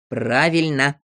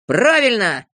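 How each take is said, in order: First: Understated amused agreement; contained, knowing tone; wry approval. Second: Loud, higher cry of agreement; raised, emphatic voice; eager shout. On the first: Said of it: "усмехнулся Знайка". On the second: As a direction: shout your hearty approval. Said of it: "закричал Авоська". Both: A narrator's reading.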